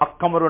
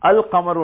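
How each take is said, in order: First: The L merges into a doubled following consonant. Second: The L is pronounced clearly before the next consonant. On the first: The speaker calls it wrong. "அது எப்படி அக்கமர் ஒன்று மொழிய மாட்டாங்க" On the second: The speaker calls it right. "அல் கமர் ஒன்று தான் மொழியணும்"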